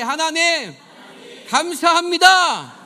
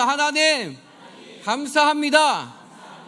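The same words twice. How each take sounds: First: It is said more loudly. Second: It is said at normal, softer volume.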